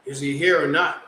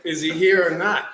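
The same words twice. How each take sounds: First: Deadpan, no smile in the voice; straight face. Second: Repeating the line while still laughing; laughing retelling. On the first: Newcomer to the teasing barber, deadpan straight face. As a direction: ask it flat and dead serious. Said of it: "I give him a straight face". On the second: Telling a friend the story, laughing through the quote. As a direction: crack up as you repeat the question. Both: Retold or imitated.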